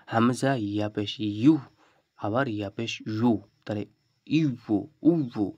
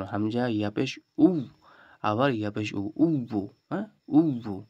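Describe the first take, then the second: First: ইয়া পেশ said ইউ with a y glide; hard yāʾ drill. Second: ইয়া পেশ উ ending in উব্বু, rounded and doubled; careful retry. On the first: Teacher showing the hard ইয়া পেশ ইউ. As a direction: glide into ইউ slowly. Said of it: "এটা একটু কঠিন". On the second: Teacher urging students to try উব্বু carefully. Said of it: "একটু ভালো করে চেষ্টা করুন". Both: Shown as a demonstration.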